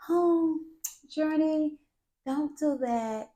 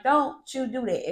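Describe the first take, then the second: First: Mock gentle parenting. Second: Stern mom warning; stern heightened tone. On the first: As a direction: coo it like an overly gentle mom. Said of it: "Gentle parenting my ass". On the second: Shown as a demonstration. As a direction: lay down the law to a toddler. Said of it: "you have to heighten that tone".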